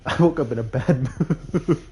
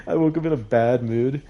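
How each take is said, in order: First: Laughing through the words, pitched up; giggling as she admits it. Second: Said in the usual way. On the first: Real, not acted. Telling viewers about her bad mood, laughing.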